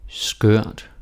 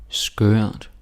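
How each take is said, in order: No difference in how they are said.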